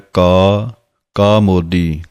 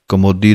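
First: It is said as two separate words. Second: It is run together as one word. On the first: The speaker calls it right. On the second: The speaker calls it wrong. "ਕਮੋਦੀ ਨਹੀਂ ਕਹਿਣਾ ਹੈ"

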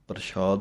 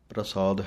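First: The middle consonant is an 'sh' sound. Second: The middle consonant is a plain 's' sound. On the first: The speaker calls it wrong. "ਪ੍ਰਸ਼ਾਦ ਨਹੀਂ ਕਹਿਣਾ" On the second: The speaker calls it right. "ਪ੍ਰਸਾਦ ਹੈ"

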